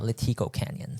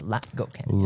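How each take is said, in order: First: The stress falls on the second syllable of Latigo. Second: The stress falls on the first syllable of Latigo. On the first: The speaker calls it wrong. "It's not" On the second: The speaker calls it right. "It's kind of like a like retina"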